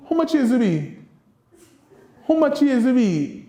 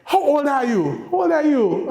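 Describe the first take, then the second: First: Creole question modelled for the class; Kittitian Creole. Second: Said in the usual way. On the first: Shown as a demonstration. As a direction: give the Creole version as a teacher would. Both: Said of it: "So we say".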